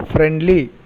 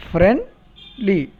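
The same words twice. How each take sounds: First: Said in the usual way. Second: "Friendly" split as friend, pause, li; pause between syllables. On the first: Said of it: "We take a small pause". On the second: Shown as a demonstration. Teacher showing two groups of sound, "Friendly" broken in two. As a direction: put a small gap before the "li" of "Friendly". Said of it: "small pause".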